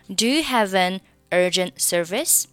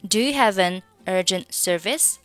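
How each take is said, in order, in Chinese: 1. 只有 'have' 和 'an' 连在一起读。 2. 只有 'have' 和 'an' 连在一起读。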